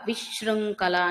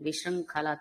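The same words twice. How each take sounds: First: The word is said with heavy force. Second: The word is said with light force. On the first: The speaker calls it wrong. "అని ఎప్పుడు చదవద్దండి" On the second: The speaker calls it right. "తేలికగా పలకాలి"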